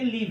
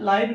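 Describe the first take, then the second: First: The vowel is a short 'ih'. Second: The vowel sounds like 'eye'. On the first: The speaker calls it right. "बल्कि लीव है" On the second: The speaker calls it wrong. "लाइव नहीं है"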